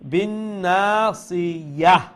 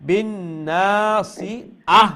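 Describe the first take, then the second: First: A y sound comes before the final vowel. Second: A glottal stop comes before the final vowel. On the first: The speaker calls it right. "ইয়া হা জবর ইয়াহ" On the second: The speaker calls it wrong. "আহ হইলে তো আহ, হামজার উচ্চারণ"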